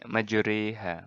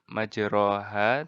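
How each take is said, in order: First: The vowel after r leans toward e. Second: The vowel after r is a plain open a. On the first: The speaker calls it right. "mencondongkannya jadi mirip kasroh" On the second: The speaker calls it wrong. "bukannya dibaca majroha"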